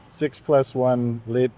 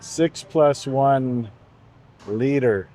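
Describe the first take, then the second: First: The word ends without an R sound. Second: The word ends with an R sound.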